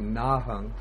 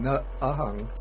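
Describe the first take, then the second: First: The two words are joined into one. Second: The two words are said separately. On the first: "so you just join the two ways, say nahung" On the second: "instead of saying na ahung"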